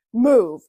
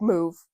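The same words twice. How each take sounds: First: Impatient dad snapping Move; curt loud order. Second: Said in the usual way. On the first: Retold or imitated. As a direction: bark it out, sharper and louder. Dad ordering her aside.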